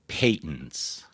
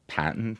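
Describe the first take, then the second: First: The first vowel is a long 'ay' sound. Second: The first vowel is a short 'a' sound. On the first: This is an older pronunciation. "some older people pronounce them patents uh, to rhyme with latent" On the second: This is the current pronunciation. "We all say patent"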